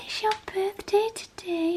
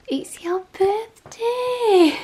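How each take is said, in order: First: Said in the usual way. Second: Slow, breathy stage whisper full of excitement; excited whisper. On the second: Real, not acted. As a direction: whisper the surprise like a secret. Surprising dog on his birthday.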